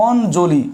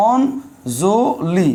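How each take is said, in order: First: Said in the usual way. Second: অঞ্জলি stretched slowly into separate syllables, ON-JO-LI; syllable-by-syllable demo. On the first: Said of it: "উচ্চারণ কি হচ্ছে". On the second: Shown as a demonstration. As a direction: break অঞ্জলি into slow, spaced syllables with a clear n. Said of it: "উচ্চারণ হয়". (অঞ্জলি ধীরে ধীরে ভেঙে ভেঙে, অন-জো-লি উচ্চারণ)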